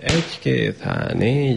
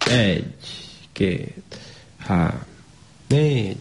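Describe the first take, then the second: First: The numbers are counted at three times the first pace. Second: The numbers are counted at a slow, even pace. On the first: Three numbers are said per hand beat. "háromszor olyan gyorsan mondanánk a számokat" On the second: One number is said per hand beat. "elkezdjük mondani a számokat először"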